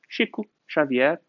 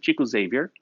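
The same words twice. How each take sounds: First: The name is said with a Brazilian Portuguese pronunciation. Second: The name is said with an English pronunciation. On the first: "In Brazil, we just call" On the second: "In English, we pronounce it"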